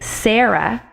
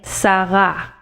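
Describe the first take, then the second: First: The stress is on the first syllable. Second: The stress is on the second syllable. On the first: The speaker calls it wrong. "We don't say Sarah" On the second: The speaker calls it right. "the second syllable in both of these Hebrew words is the syllable which is to be accented"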